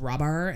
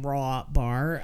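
First: Run together into one slurred word, rabar. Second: Two clearly separated words, raw and bar. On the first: The speaker calls it wrong. "I just heard rabar" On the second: The speaker calls it right. "like as in raw bar"

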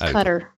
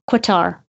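First: It sounds like the English word cutter. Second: It does not sound like the word cutter. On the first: The speaker calls it right. "I know what this one is. It's Cutter" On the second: The speaker calls it wrong. "when I first saw it ... I would say Qatar"

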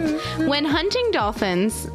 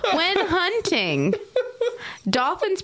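First: The words run together with no pause. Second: There is a pause after 'hunting'. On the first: Someone is hunting the dolphins. The speaker calls it wrong. "how dare you say those three words with that inflection" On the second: The dolphins are the ones hunting. The speaker calls it right. "there really should be a comma there"

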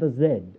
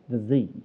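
First: Z is said the British way, as zed. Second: Z is said the American way, as zee.

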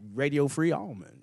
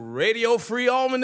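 First: It is said in a casual street style. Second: It is said in a polished announcer voice. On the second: "that's my radio voice"

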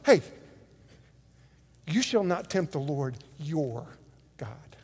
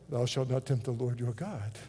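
First: It is said in a forceful, dramatic way. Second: It is said in a calm, plain way.

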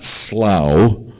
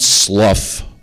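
First: The vowel rhymes with cow. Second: The vowel rhymes with tough. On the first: "It's not slough, like a cow" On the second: "it's not slough, like tough"

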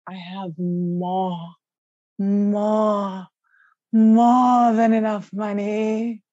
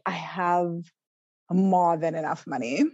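First: It is said in a put-on sexy voice. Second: It is said in a plain voice.

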